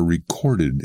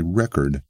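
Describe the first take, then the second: First: "recorded" stressed on the second syllable, re-CORD-ed; verb stress. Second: "record" stressed on the first syllable, REC-ord; noun stress. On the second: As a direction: hit REC at the front of "record". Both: Shown as a demonstration. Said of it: "backward shift of accentuation".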